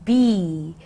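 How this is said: The vowel sounds like the one in 'bee'. "American, it'll be be"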